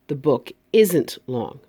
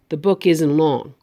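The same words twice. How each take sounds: First: The T in isn't is clearly pronounced. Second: The T in isn't is dropped.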